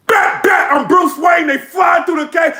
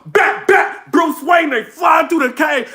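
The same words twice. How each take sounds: First: Shouted, pitched higher, rapped out like a battle line; hyped battle bars. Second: Shouted and higher, the bars rapped again; shouted battle rap replay. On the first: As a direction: bark the bars at the crowd. [name]'s battle bars, retold. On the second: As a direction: bark the bars once more for the replay. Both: Retold or imitated.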